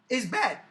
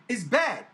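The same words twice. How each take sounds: The two takes are said the same way.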